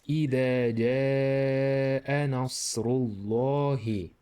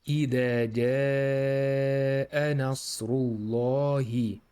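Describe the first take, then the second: The two takes are said the same way.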